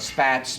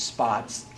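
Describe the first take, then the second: First: The vowel sounds like the one in 'cats'. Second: The vowel sounds like the one in 'pots'. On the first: The speaker calls it wrong. "some people call it Spats Museum" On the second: The speaker calls it right. "but it's Spots"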